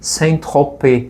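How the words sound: The name is said with a French pronunciation. This is the original form of the name. "é em francês, então a pronúncia é Saint-Tropez"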